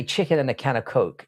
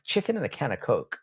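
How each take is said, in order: First: Said in the usual way. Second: "Chicken and a can of Coke" in his own London accent, a touch softer; British pronunciation on request. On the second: Shown as a demonstration. Streamer saying the chat's phrase on request, a little quieter, London accent. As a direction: say "Coke" with a London vowel, as asked. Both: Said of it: "Can you say chicken and a can of Coke?".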